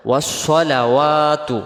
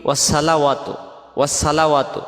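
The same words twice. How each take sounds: First: Slow chanted ওয়াসসালাওয়াতু with a full sad sound; correct recitation. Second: Quick ওয়াসসালাওয়াতু with a thin sin-like s; common mistake. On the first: Teacher chanting ওয়াসসালাওয়াতু before showing the mistake. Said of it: "এই শব্দটা আমরা বলি কি". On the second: Teacher showing students the wrong ওয়াসসালাওয়াতু. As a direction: say ওয়াসসালাওয়াতু fast with an s sound. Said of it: "সদটা সিন অক্ষর হয়ে যাবে". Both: Shown as a demonstration.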